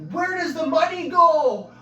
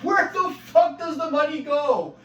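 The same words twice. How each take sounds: First: High, loud demanding cry; exasperated yell. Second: High, loud and slow, hitting WHERE; slower exasperated yell. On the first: Asking the boss where the EI money goes, a high loud exasperated yell. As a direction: demand it at full voice. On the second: Pressing the boss again about the EI money, a high loud slow outraged yell. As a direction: drag out "Where the fuck" in outrage. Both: Retold or imitated. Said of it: "I'm like".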